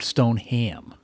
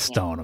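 First: It is said as two full parts, Stone-ham. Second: It is run together as one reduced word.

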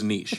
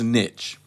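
First: The word is given a French-style pronunciation. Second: The word is given an English-style pronunciation. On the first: This is the pronunciation in vogue for recent decades. "For 65 years, this word was niche" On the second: This is the older, long-standing pronunciation. "For a thousand years, this word was niche"

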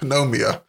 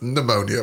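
First: The p at the start is pronounced. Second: The p at the start is silent. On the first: The speaker calls it wrong. "pneumonia starts with a P" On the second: The speaker calls it right. "you know, it's pneumonia, right?"

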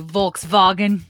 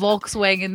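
First: The W is pronounced like an English V. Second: The W is pronounced like an English W.

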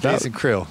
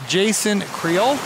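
First: The name Creel is said quickly. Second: The name Creel is drawn out slowly. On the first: The speaker calls it right. "Yeah, that's good. Just quick and it's one syllable" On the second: The speaker calls it wrong. "You kind of drug it out that time"

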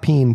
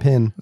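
First: The vowel is a long ee sound. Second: The vowel is a short i sound. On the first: The speaker calls it wrong. "No, not peen" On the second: The speaker calls it right.

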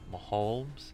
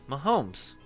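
First: The name has an L-like sound in it. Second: The name has no L-like sound in it. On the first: The speaker calls it wrong. "That sounds L. like an L" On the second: The speaker calls it right. "Yeah, there you go"

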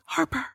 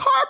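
First: The name is whispered softly. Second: The name is called out in full voice. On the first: She quietly hopes the child will come back. "She whispers it" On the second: She performs grief for the police. "she actually puts on a show"

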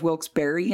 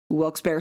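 First: Barre is said with its second syllable. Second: Barre is said without its second syllable. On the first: "instead of" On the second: "I always take the second syllable out"

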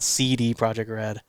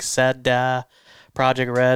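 First: CD is said as English letter names. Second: CD is not said as English letter names. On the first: The speaker calls it wrong. "it's not CD Projekt Red" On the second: The speaker calls it right. "It's like SEDA Projekt Red"

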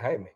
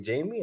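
First: The name sounds like Spanish 'Hi-meh'. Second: The name sounds like English 'Jamie'. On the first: This is how Latinos in Miami say it. "us Latinos here in Miami say Jaime" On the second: This is how Americans say it. "Americans say Jamie"

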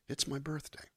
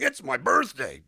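First: It is said toned down, with little melody. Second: It is said big, with exaggerated melody.

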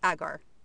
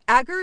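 First: The word is said the British way. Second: The word is said the American way. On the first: The speaker calls it right. "I'm using the UK way, agar. That one just sounds right" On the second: The speaker calls it wrong. "Agar is apparently the American way, and it just doesn't sound natural to me"

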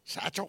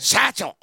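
First: The word is said flatly, with little energy. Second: The word is said loudly, with lots of energy. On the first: The speaker calls it wrong. "Doesn't have the energy on the satchel" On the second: The speaker calls it right. "There we go"

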